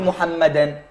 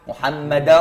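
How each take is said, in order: First: The final n sound is clearly pronounced. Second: The final n sound merges into the next word. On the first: The speaker calls it wrong. "ما أقول محمدا" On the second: The speaker calls it right. "شو أقول؟ محمدا رسول الله"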